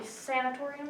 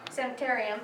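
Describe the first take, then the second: First: "sanatorium" said with -torium ending; mispronounced word. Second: "sanitarium" with -tarium, sa-ni-TAIR-ee-um; corrected word. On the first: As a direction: say "sanatorium", not sanitarium. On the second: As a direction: fix it to "sanitarium". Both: Real, not acted.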